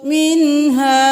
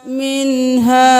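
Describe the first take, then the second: The two takes are said the same way.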